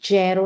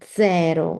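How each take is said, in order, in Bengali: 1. এটি বাংলা ধাঁচের উচ্চারণে বলা হয়েছে। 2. এটি ইতালীয় ধাঁচের উচ্চারণে বলা হয়েছে। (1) "জেরো না" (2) "কিন্তু জেরো"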